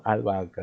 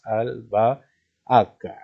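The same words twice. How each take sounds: First: Said in the usual way. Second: "albahaca" broken slowly into syllables. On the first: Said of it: "Imagínate que no está". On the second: Shown as a demonstration. Teacher splitting albahaca into syllables for students, slow and separated. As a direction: draw out each syllable of "albahaca". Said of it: "Lo vamos a separar en sílabas".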